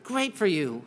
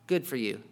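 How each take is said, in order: First: It sounds warm and nice. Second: It sounds dismissive and flat.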